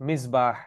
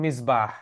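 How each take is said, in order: No difference in how they are said.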